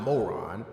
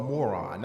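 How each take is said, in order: First: "moron" said the Maryland Eastern Shore way, lower; "moron" in a Maryland Eastern Shore accent; Eastern Shore pronunciation. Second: "moron" said the way Northerners say it; "moron" in a Northern accent; Northern pronunciation. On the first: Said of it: "not moron". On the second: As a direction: give "moron" the plain Northern vowels. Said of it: "people in the North call moron". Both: Shown as a demonstration.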